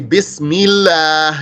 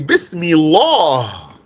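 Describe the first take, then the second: First: The L sound is light and thin. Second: The L sound is heavy and full. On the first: The speaker calls it right. "you say Bismillah" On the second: The speaker calls it wrong. "You don't say Bismillah"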